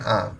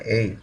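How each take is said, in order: First: The letter name is said the Indonesian way. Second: The letter name is said the English way. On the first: "Kalau di kita kan sebutnya A" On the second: "tapi kalau di bahasa Inggris sebutnya A"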